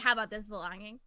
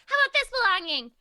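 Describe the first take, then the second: First: It is said in a normal-pitched voice. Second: It is said in a high-pitched voice.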